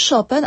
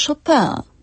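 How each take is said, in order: First: "Chopin" the Polish way, SZO-pen with a sounded n; Polonized pronunciation. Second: "Chopin" the French way, szo-PĘ with a nasal ending and no n; French pronunciation. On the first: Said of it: "Spolszczeniu uległo nazwisko Chopina". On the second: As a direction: say "Chopin" as in French, stress on the final nasal vowel. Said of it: "a nie Chopin". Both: Shown as a demonstration.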